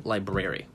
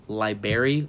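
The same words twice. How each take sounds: First: Library said as LIE-brer-ee; library with a clear BR, falling at the end; standard pronunciation. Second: Library said as LIE-berry; Library ending like berry, raised at the end; dropped-R pronunciation. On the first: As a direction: keep both Rs in library. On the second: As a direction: drop the first R in Library. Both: Shown as a demonstration. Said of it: "people say library".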